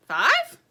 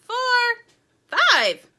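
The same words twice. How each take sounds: First: High, loud rising question; puzzled question. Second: High, loud final numbers; loud count-off. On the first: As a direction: query the extra number in disbelief. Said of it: "asked Sugar". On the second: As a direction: call out each number forcefully. Count rising to a surprise fifth. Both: A narrator's reading.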